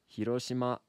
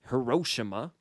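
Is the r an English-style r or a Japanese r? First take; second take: Japanese; English. First: The r sounds like a blend of r, d, l. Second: The r is a plain English-style r sound. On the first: The speaker calls it right. "but it's Hiroshima" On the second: The speaker calls it wrong. "It's not Hiroshima"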